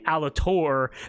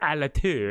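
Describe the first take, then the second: First: The final R is pronounced aloud. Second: The final R is left silent. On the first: Pirates say the name this way. The speaker calls it wrong. "pirates would be like Alator because they'd say it incorrectly" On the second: This is the name as intended. The speaker calls it right. "it had a silent R at the end"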